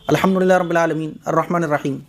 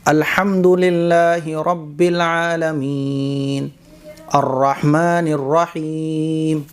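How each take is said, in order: First: It is recited quickly with clipped words. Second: It is recited slowly with clear pauses.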